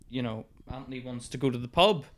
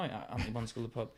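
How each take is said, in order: First: Said in the usual way. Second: Fast mumble. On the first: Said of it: "I do the act out". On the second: Retold or imitated. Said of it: "So I blame it on him now".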